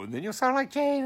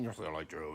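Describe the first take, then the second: First: Put-on high girlish falsetto; high Jane voice. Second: Dropped low and soft; low Joe voice. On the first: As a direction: flip way up into falsetto. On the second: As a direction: sink down into a deep boy's voice. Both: Shown as a demonstration. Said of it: "your voice is gonna change".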